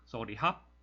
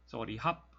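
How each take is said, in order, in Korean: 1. 마지막 단어는 h 소리로 시작합니다. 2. 마지막 단어는 h 소리로 시작합니다.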